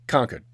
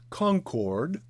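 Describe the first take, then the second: First: The R sounds in the word are dropped. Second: The R sounds in the word are pronounced. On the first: The speaker calls it right. "Just leave out the R's" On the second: The speaker calls it wrong. "Our capital city is not pronounced Concord"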